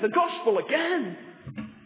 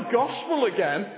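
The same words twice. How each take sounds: First: The voice sounds excited and delighted. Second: The voice sounds bored and weary. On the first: Hearing the message again is a thrill. The speaker calls it right. "We always go, oh, great, the gospel again" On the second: Hearing the message again is tiresome. The speaker calls it wrong. "We don't say, oh, yawn, not the gospel again"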